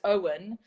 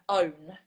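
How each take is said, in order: First: The ending is said as two syllables. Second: The ending is said as one syllable. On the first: The speaker calls it right. "so it's Owen" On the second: The speaker calls it wrong. "but people were saying own"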